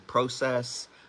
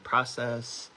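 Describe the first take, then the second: First: It is said the Canadian way. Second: It is said the American way.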